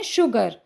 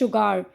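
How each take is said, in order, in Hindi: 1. आखिरी सिलेबल में हल्का 'er' स्वर है। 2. आखिरी सिलेबल में खुला 'ar' स्वर है। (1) "बट हम इसको कैसे बोलते हैं?" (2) "तो हमको तो यहाँ पे आर बोलना चाहिए"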